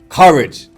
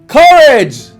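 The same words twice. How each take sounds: First: It is said at a normal volume. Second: It is shouted as loudly as possible.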